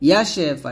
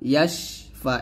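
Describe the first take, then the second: First: An extra vowel follows 'yash' before 'fa'. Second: 'Yash' runs straight into 'fa' without vowel. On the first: The speaker calls it wrong. "এরকম না" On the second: The speaker calls it right. "ইয়াশ ফা এরকম"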